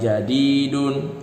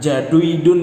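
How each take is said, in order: First: The middle vowel is a single long 'i'. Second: The middle vowel is a 'u' gliding into 'i'. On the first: The speaker calls it right. "dibaca panjang" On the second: The speaker calls it wrong. "itu tidak mungkin"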